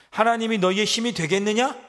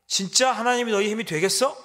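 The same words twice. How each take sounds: First: Loud, higher sneer rising at the end; enemy sneering at their God; mocking taunt. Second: Loud, higher, punching 진짜 with a scornful rise; enemy jeering harder at their God; sharper mocking taunt. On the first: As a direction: throw the question at them with contempt. Assyrian mockery of God. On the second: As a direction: escalate the sneer, leaning on 진짜. Assyrian mockery, intensified.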